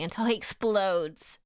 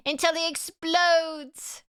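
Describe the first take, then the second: First: Said in the usual way. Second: High, slow ominous narration; dramatic slow narrator. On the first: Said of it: "repeats it dramatically". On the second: Shown as a demonstration. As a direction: draw it out like a trailer voice. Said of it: "dramatic repeat".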